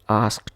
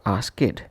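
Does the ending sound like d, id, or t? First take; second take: d; id. First: The ending is pronounced as a d sound. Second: The ending is pronounced as an extra id syllable. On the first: "not as d" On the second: "or as it"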